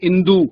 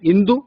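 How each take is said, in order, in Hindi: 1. अंतिम स्वर दीर्घ है। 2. अंतिम स्वर ह्रस्व है। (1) "जहां ह्रस्व स्वर का प्रयोग करना चाहिए वहां दीर्घ स्वर का कर देते हैं" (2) "मानक रूप है"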